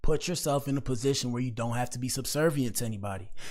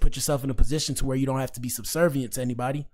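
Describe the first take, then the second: First: The sentence is spoken at a slow pace. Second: The sentence is spoken at a fast pace. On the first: "let me slow it down" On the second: "if I said that fast"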